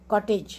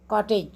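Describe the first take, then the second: No difference in how they are said.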